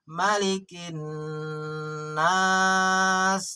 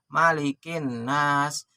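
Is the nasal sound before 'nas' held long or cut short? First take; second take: long; short. First: The nasal before 'nas' is held long. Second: The nasal before 'nas' is cut short. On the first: The speaker calls it right. "Gunnah tahan" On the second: The speaker calls it wrong. "Jadi jangan begini"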